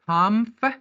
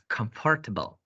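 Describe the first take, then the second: First: The beginning is said shortly as comf. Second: The beginning is said fully as com-fort. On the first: The speaker calls it right. "The correct pronunciation for this word is comfortable. ... comf ... comf" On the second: The speaker calls it wrong. "We are not pronouncing this word as comfortable. All right? It is wrong"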